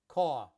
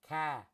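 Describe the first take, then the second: First: Queens New York accent, with no final r. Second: Boston accent, with the r dropped. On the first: "In Queens, in New York, it's caw" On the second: "Boston, ca"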